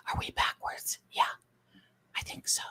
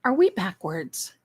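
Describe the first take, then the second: First: Whispered question to herself. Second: Said in the usual way. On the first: Real, not acted. Streamer rechecking the flipped camera, whispered. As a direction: ask it under your breath.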